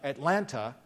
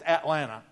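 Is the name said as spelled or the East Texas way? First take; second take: as spelled; East Texas. First: It is pronounced the way it is spelled. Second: It is pronounced the local East Texas way. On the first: "it's spelled A-T-L-A-N-T-A, like Atlanta" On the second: "it's not the way you say it in East Texas. It's Atlanta"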